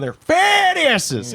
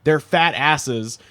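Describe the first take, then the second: First: The pitch goes up and then down. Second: It is said with a plain, flat pitch.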